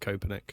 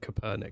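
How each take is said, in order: First: The syllable 'per' is not stressed. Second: The syllable 'per' is strongly stressed. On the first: The speaker calls it right. "I'm going to pronounce it Copernic" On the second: The speaker calls it wrong. "why they keep saying Copernic. Why are they putting so much emphasis on the per?"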